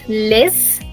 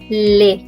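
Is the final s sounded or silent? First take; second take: sounded; silent. First: The final s is pronounced. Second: The final s is not pronounced. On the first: The speaker calls it wrong. "So it's not les" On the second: The speaker calls it right. "Last letter is silent"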